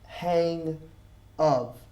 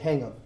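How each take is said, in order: First: The two words are said separately. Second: The two words run together as one. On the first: The speaker calls it wrong. "I don't really pronounce hang of" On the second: The speaker calls it right. "I combine the two together"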